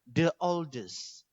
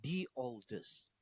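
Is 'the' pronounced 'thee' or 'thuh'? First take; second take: thuh; thee. First: The word 'the' is pronounced 'thuh'. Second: The word 'the' is pronounced 'thee'. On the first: The speaker calls it wrong. "Sama dengan bukan" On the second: The speaker calls it right.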